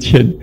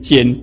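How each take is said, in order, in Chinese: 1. 这个音节读作 qian。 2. 这个音节读作 jian。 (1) "就念嗔啊" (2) "现在念奸，哦，连国文老师都念奸，这是错的"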